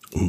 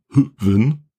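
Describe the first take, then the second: First: The H is silent; it sounds like van. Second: It starts with an H and a ü vowel. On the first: The speaker calls it right. "Das H ist aber stumm. Es ist ein Van" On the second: The speaker calls it wrong. "Oder Hüven"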